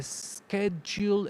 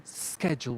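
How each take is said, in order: First: "schedule" as "eh-skedule", with an extra vowel before the s; slow learner error "schedule" with a leading e sound; "schedule" started with a stray vowel, dragged out; wrong pronunciation. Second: "schedule" as SKED-jool, starting straight on the s; correct pronunciation. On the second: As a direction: clean "schedule" with no vowel before it. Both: Shown as a demonstration. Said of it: "without an extra sound at the beginning".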